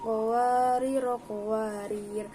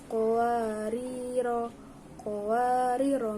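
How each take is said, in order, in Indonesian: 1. Kata pertama pendek, lalu tersambung ke kata kedua yang terputus dan berhenti. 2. Berhenti di kata pertama yang panjang, lalu lanjut. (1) "qawariro yang pertama ro-nya dibaca pendek, kemudian qawariro yang kedua dibaca sukun" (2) "qawariro yang pertama itu dibaca panjang, kemudian qawariro yang kedua dibacanya pendek"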